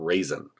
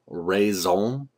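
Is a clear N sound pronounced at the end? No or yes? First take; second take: yes; no. First: The word ends with a clear N sound. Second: The word ends without a clear N sound. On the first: The speaker calls it wrong. "It's not raisin" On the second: The speaker calls it right. "it's pronounced in French raison d'être. You don't pronounce the N in raison"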